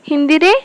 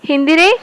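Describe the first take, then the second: Both takes have the same delivery.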